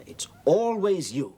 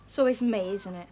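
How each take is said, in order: First: "always" raised and drawn out slowly; slow, higher, stressing "always"; pointed echo. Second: Loud complaint of unfairness; aggrieved protest. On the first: Teacher turning the pupil's complaint back on her, pointed. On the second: Pupil complaining to the teacher, aggrieved. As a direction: protest at being singled out. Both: Acted.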